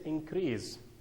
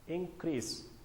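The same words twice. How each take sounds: First: The stress is on the second syllable. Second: The stress is on the first syllable. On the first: It is used as a verb. "If it is a verb, it is said increase" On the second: It is used as a noun. "so it is pronounced like this"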